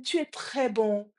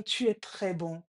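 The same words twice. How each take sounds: First: Slow, deliberate statement; father's call. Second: Imitated echo. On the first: Retold or imitated. Father offers the echo praise, slow and deliberate. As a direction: say it slowly for the echo to repeat. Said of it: "le père dit". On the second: Voice repeats the father's praise, subdued echo. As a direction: hand the words back, a little quieter. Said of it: "Et la voix répond".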